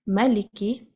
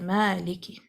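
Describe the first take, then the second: First: The first vowel is short, without the long a. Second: The first vowel is long, with a drawn-out a. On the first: This is the reading in another recitation tradition. "there is a qira'ah where this word is read as Maliki" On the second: This is the reading in the Hafs from Asim tradition. "in Hafs and Asim, we say Maliki"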